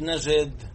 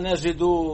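First: The word ends with no final vowel. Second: The word ends with a final 'u' vowel. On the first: The verb is in the jussive mood. The speaker calls it wrong. "مش نجد" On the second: The verb is in the indicative mood. The speaker calls it right. "ليش إنا نجدو"

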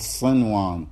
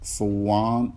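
First: The n is clearly pronounced before the w. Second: The n merges into the w and is dropped. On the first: The speaker calls it right. "لابد أن تقول صنوان تظهر النون" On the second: The speaker calls it wrong. "هل يجوز لك الإدغام بأن تقول صوان"

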